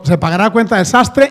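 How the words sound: It is said as a question, rising at the end.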